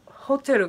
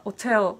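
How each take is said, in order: First: ホテル with the H pronounced; sounded H. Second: オテル with no H at the start; dropped H. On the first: Teacher restating a viewer's question, ホテル with sounded H. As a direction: start ホテル on an H. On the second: Teacher restating what the viewer hears, オテル with dropped H. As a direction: open オテル straight on the vowel. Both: Shown as a demonstration. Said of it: "ホテルがオテルにな-、".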